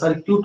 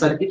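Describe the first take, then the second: First: The second syllable sounds like 'kyoot'. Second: The second syllable sounds like 'kit'. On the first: The speaker calls it right. "सर्क्यूट होता है" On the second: The speaker calls it wrong. "सर्किट नहीं होता"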